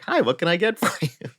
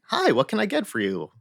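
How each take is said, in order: First: Higher, mock machine greeting; automated greeting again. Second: Higher, mock machine greeting; automated greeting. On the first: Closed Wendy's machine greets again, same mock robotic tune. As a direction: copy the recording exactly, same tune. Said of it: "same voice, same, like, intonation". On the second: Closed Wendy's machine greets the car, mock robotic. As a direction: imitate the drive-thru robot voice. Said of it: "automated thing that said something like".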